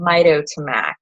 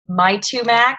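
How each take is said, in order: First: The name is said with four full syllables. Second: The name is said with one syllable dropped. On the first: The speaker calls it right. "yes, I said that correctly" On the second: The speaker calls it wrong. "I skipped that little two that's in there"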